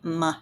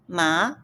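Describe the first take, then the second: First: It is said with the light neutral tone. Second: It is said with the second tone. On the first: It marks a question. "the light sound ma is the question indicator" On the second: It means numb or hemp. "it can be dumb or linen"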